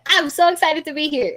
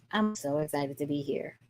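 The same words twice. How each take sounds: First: Bright, higher, louder "so excited" greeting. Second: Much lower and softer, no energy at all; flat unexcited. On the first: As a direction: sound thrilled to be here. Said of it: "y'all know at the beginning when I was talking". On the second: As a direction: say "excited" sounding bored and deflated. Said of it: "your body language is not telling us that you are excited". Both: Shown as a demonstration.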